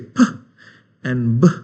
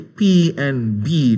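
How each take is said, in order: First: The letters are said as short bare sounds. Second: The letters are said by their alphabet names. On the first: The speaker calls it right. "we say p and b" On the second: The speaker calls it wrong. "we don't say P and B"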